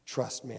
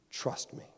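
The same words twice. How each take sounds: First: Said in the usual way. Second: Hushed whisper of God. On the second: Retold or imitated. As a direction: breathe it like a secret. God answers in retold prayer.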